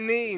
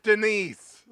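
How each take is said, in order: First: The final S sound is silent. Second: The final S sound is pronounced. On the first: The speaker calls it right. "S silent" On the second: The speaker calls it wrong. "not Denise"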